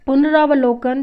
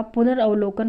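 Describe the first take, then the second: First: पुनरावलोकन with long "raa"; long aa after r in पुनरावलोकन; wrong form. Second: पुनरावलोकन said as pu-nar-av-lo-kan; short a after r in पुनरावलोकन; no long "raa" in पुनरावलोकन; correct form. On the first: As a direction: say पुनरावलोकन as pun-RAA-va-lo-kan. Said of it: "नहीं होता". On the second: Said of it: "होता है". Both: Shown as a demonstration.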